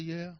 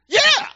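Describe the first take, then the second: First: It is said flatly, without conviction. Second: It is said with passion and conviction.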